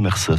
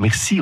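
First: The word ends with an 'eh' vowel. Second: The word ends with an 'ee' vowel. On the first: "on dit Mercer ... le i devient un e" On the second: "On ne dit pas merci"

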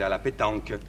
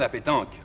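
First: It is said with a strong Marseille accent. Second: It is said with a standard French accent. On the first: This is how the speaker used to say it. "mais autrefois, je disais" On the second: This is how the speaker says it now. "Je dis maintenant"

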